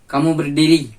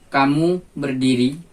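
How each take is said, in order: First: It is said as a firm command. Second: It is said as a plain falling statement. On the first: It orders the listener to stand up. "yakni kalimat perintah" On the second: It reports that the listener is standing. "yakni kalimat berita"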